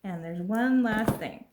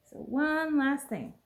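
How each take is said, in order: First: Said in the usual way. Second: One last thing higher and slower, leaning on one; slow it down and lift it for a teaser; drawn-out announcement. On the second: Real, not acted. Telling viewers about the final gift, slow and higher.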